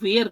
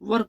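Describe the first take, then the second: First: The vowel is drawn out, like 'wear'. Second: The vowel is short and central, like 'wer'. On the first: The speaker calls it wrong. "कई लोग वेयर कहते हैं, ये गलत है" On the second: The speaker calls it right. "वर कहा जाता है"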